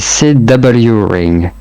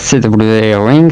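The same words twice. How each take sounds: First: Ring is pronounced the English way. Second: Ring is pronounced the French way. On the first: The speaker calls it right. "ça se prononce à l'anglais" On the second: The speaker calls it wrong. "pas C W Ring"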